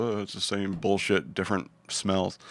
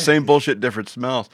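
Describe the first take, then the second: First: Jaded. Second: Laughing. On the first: Acted. World-weary punchline. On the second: Real, not acted. Repeated with laugh.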